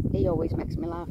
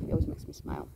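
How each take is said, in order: First: Said in the usual way. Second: Soft low whisper, trailing off. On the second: Real, not acted. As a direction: breathe it fondly, almost whispered. Fond remark, hushed.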